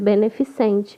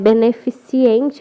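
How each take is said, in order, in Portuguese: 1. A terminação não tem som de 'i' extra: cente. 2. A terminação tem um som de 'i' extra: ciente. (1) "mas é beneficente" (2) "cria-se a mania de colocar ciente"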